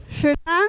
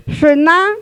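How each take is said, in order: First: Said in the usual way. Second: Shuna said louder, stressing the second syllable; stressed demo. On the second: Shown as a demonstration. Teacher showing the class where Shuna's stress falls, loud. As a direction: hit Shuna hard to show the stress. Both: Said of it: "jala la fuerza".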